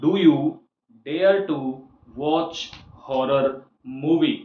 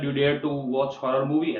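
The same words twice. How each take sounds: First: It is said slowly. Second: It is said fast.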